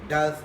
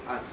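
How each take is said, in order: First: The word has its full vowel. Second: The word is shortened to a weak vowel. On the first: "reduced from does" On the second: "to us"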